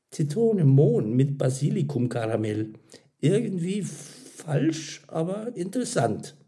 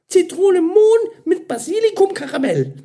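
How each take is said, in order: First: Higher voice, hesitating while tasting; pondering verdict. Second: Very high, loud flavour presentation; eager announcement. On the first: Karin tastes and judges the flavour. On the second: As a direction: present the order with gushing enthusiasm. Mira proudly announces her creation. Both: A narrator's reading.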